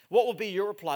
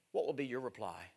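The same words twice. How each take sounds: First: Thrown out louder to the whole room; raised preacher's challenge. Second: Asked low and soft, almost to himself; soft, lowered pulpit question. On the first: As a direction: press the congregation for an answer. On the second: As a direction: let the question sink in quietly. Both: Acted. Question repeated, soft then loud.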